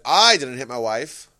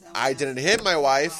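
First: The stress falls on the word 'I'. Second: The stress falls on the word 'hit'. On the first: Someone else hit the wife. "someone else" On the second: The wife was harmed in some other way. "But you kicked her"

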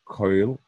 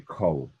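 First: The vowel is an 'oy' glide. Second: The vowel is a plain 'o' sound. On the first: "They won't say Koil" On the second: "a Sfaradim will say Kol"

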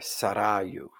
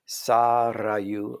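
First: The stress is on the second syllable. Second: The stress is on the first syllable. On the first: "properly accented on the first or second syllable" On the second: "properly accented on the first or second syllable"

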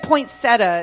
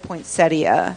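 First: The word is said with three syllables. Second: The word is said with four syllables. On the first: The speaker calls it wrong. "you said poinsettia" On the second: The speaker calls it right. "instead of poinsettia"

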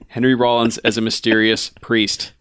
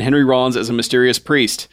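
First: The phrase is read slowly and deliberately. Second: The phrase is read at a normal pace.

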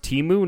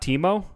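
First: The name ends in an 'oo' vowel. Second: The name ends in an 'oh' vowel. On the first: The speaker calls it right. "it's pronounced Timu" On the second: The speaker calls it wrong. "not Timo"

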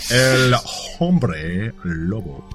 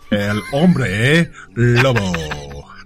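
First: The h at the start of Hombre is pronounced. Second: The h at the start of Hombre is silent. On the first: The speaker calls it wrong. "Don't pronounce the H" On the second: The speaker calls it right.

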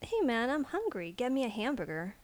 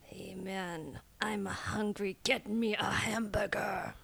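First: It is tossed off casually, sounding offhand. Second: It is muttered low, sounding angry.

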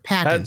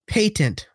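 First: It is said the American way. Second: It is said the British way.

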